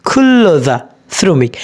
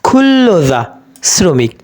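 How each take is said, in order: No difference in how they are said.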